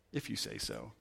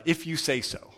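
First: If you say so dropped low and much softer; Jesus brushing off Pilate, low and dismissive; dismissive mutter. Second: Said in the usual way. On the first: Retold or imitated. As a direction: shrug it off under your breath. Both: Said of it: "either one of these ways".

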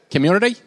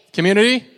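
First: British attempt slipping into Australian; loud, high, badly faked British-Australian accent; botched British accent. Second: Said in the usual way. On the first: Shown as a demonstration. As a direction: say "community" in a wobbly British accent that lands in Australia. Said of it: "say it in your best British accent". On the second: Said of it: "One more time".

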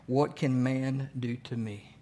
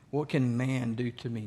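First: Slow, each word laid down deliberately; slow scripture reading. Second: Said in the usual way. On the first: Shown as a demonstration. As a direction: read "What can man do to me?" slowly, weighing every word. Preacher slowing a scripture quote.

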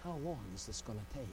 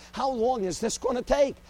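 First: Low, soft, rushed murmur to heaven; preacher quietly asking God, hushed and hurried; hushed quick question. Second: Higher, louder desperate plea to God; preacher demanding an answer from God, loud and pleading; pleading outcry. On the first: Acted. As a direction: ask it under your breath, fast. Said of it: "a preacher looking up to heaven". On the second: Retold or imitated. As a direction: cry out How long is this gonna take at heaven. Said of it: "the preacher standing before God".

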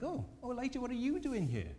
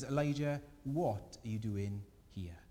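First: Much higher, hammed-up gasp of surprise; mock shocked God. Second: Gentle listening God. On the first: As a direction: play God as a startled busybody caught off guard. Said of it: "He's not like". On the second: Pretend. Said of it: "And God just simply listens".

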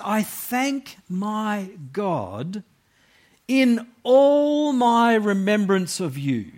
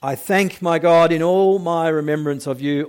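First: Slow, high, heartfelt reading; joyful tone. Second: Said in the usual way. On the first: Shown as a demonstration. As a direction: read it with Paul's joy. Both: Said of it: "you can't really miss the tone".

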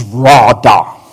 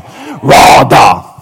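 First: Radah said slowly, RAH-dah; Hebrew word radah. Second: Husky shout. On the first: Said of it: "That word dominion in the Hebrew". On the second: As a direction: belt out radah. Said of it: "get your husky voice on". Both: Shown as a demonstration.

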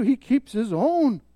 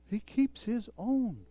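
First: Slow, weighted stress on own; slow emphatic statement. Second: Much softer slow repeat of own; soft echo. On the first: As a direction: state it firmly and slowly. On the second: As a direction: echo it quietly to let it sink in. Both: Shown as a demonstration.

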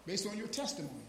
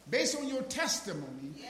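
First: Said in the usual way. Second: Testimony pressed harder, rising at the end; repeated with emphasis. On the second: Shown as a demonstration. Preacher repeating the verse for his congregation, emphatic. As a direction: hammer the phrase home the second time. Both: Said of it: "Now watch, watch what he said".

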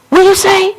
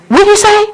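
No difference in how they are said.

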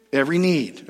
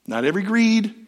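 First: "need" said firmly in the usual voice, falling at the end; stress on need. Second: "greed" lifted higher and hit hard as the wrong word; stress on greed. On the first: Pastor correcting greed to need, settled stress on need. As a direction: land "need" as the right word. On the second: Pastor contrasting greed with need for the congregation, stress on greed. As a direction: punch "greed" to set it against "need". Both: Shown as a demonstration.

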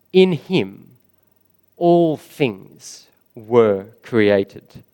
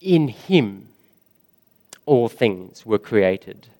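First: ALL drawn out, the whole phrase very slow; slow stressed words. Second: Said in the usual way. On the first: Shown as a demonstration. Preacher hammering the truth home to his church, slow stress on ALL. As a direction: lean on ALL and let every word land slowly. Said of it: "Another huge truth about Jesus".

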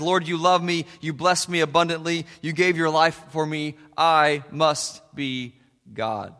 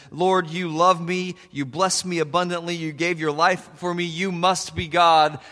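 First: I must be God, with I stressed and slowed down. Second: You must be God, with you stressed and slowed. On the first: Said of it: "cat theology says". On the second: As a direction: humbly point to you, God. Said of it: "Dog theology says". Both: Shown as a demonstration.

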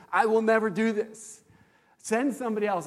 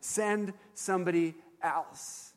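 First: Raised, pleading refusal to God; an emphatic never-me plea; insistent refusal. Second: Slow and deliberate, letting each word land; a measured echo of the plea; slow, weighty restatement. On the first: Retold or imitated. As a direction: push back hard, a little higher and louder. Retelling his vow to the Lord. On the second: Shown as a demonstration. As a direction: say it slowly, like quoting Moses. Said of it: "that's exactly what Moses is saying".

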